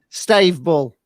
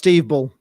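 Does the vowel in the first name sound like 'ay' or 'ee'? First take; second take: ay; ee. First: The first name's vowel sounds like 'ay'. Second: The first name's vowel sounds like 'ee'.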